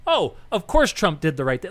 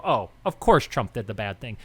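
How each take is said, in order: First: Lightly voiced, sure-of-itself reader saying "right thing"; a hint of a smug reader on the right; mock rightist reader. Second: Lower, knowing mock voice on "bad thing"; mock leftist reader. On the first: Mocking a reader on the right who is sure Trump did right, lightly voiced. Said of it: "If you're on the right, you read the article and go". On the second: Mocking a reader on the left who is sure Trump did wrong, lower voice. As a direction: imitate a smug reader on the left, pitched lower. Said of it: "If you're on the left, you see that article and go".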